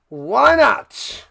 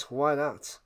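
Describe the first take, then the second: First: Why not called out louder and higher; loud repeat. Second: Soft, low throwaway mutter of why not. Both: Shown as a demonstration.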